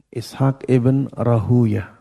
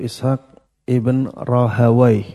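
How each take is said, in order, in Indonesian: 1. Nama belakangnya dibaca Rahuyah. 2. Nama belakangnya dibaca Rahawaih. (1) "bisa dibaca dengan dua bacaan" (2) "bisa dibaca dengan dua bacaan"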